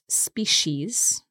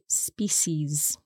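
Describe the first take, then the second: First: The middle consonant is a sh sound. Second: The middle consonant is an s sound. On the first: "so the C becomes a sh" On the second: "but some people say species as well"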